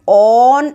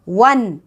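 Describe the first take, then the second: First: The word starts with a plain vowel sound. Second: The word starts with a w sound. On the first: The speaker calls it wrong. "लेकिन हम ऑन ऐसे नहीं बोल रहे हैं ना" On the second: The speaker calls it right. "डब्लू का sound आ रहा है"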